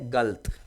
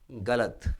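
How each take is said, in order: First: The short vowel after the ल is dropped. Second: The short vowel after the ल is pronounced. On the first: This is how people from a particular region say it. The speaker calls it wrong. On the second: This is the standard pronunciation. The speaker calls it right.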